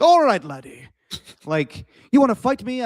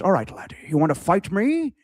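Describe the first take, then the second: First: High, loud attempt at a Scottish brogue; hammed-up Scottish accent. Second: Put-on Scottish accent, rising on the challenge; put-on Scottish film-star accent; Connery. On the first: Mimicking Scottish shin kickers calling out a challenge, exaggerated Scottish accent. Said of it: "I can't do a Scottish accent". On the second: Challenging a laddie to a shin-kicking fight, Connery-style Scottish accent. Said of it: "I could do a Connery accent".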